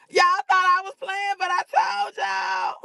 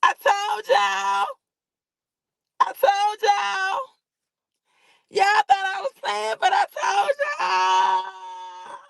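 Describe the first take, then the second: First: Gloating in a thick southern accent, much higher. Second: High, slow chanted told-you-so, shouting; sung, singsong gloat. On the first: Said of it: "And my southern accent". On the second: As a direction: chant it like a victory taunt, stretched out. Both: Real, not acted.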